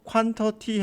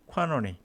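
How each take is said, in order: First: Every sound of the word is fully pronounced. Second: The sounds of the word are relaxed and reduced. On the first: "quantity 해도 되는데" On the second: "발음을 상당히 편안하게 줄이고 있죠"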